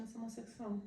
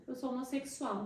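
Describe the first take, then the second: First: A timid, barely-there confession; said very softly. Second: Said in the usual way. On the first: Retold or imitated. Son confessing to his whole family, softly. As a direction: hold the words back, softly. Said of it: "Eu falei bem baixinho". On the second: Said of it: "Fala alto".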